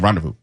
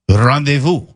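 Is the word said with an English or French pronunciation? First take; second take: English; French. First: It is said with an anglicized English pronunciation. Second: It is said with a French-style pronunciation. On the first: "We just say rendezvous" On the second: "exactly as the French do"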